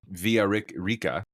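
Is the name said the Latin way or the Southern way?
Latin. It is said the original Latin way. The speaker calls it right. "is how you would actually pronounce that"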